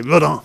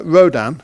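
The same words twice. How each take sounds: First: French "Rodin", ro-DAN with no hard N; "Rodin" à la française. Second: Rodin said the English way, ROH-dan with a hard R and a clear final N; anglicised "Rodin", stress on the first syllable; plain English reading of "Rodin". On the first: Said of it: "If you're in French". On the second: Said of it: "that's how you say it in English". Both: Shown as a demonstration.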